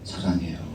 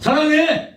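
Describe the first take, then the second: First: It is said smiling in a soft, warm voice. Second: It is said sharply in a harsh, curt voice. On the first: The speaker calls it right. "웃으면서 부드러운 목소리, 따뜻한 어조로" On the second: The speaker calls it wrong. "이러면 안 된다"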